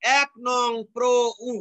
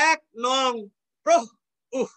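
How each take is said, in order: First: Slow এক নং প্র উ, piece by piece; read-out abbreviation. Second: এক নং, then প্র and উহ cut off with an h; spaced "ek nong, proh, uh"; visarga read literally. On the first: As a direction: open vowels on প্র and উ, spaced apart. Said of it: "তাহলে উচ্চারণ হবে কি?". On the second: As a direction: puff the ends of প্র and উহ. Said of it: "এরকম". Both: Shown as a demonstration.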